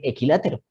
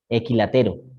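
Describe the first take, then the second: First: The stress falls on the syllable la. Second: The stress falls on the syllable te. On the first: The speaker calls it right. "Con la tilde me hace decir" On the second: The speaker calls it wrong. "Sin tilde"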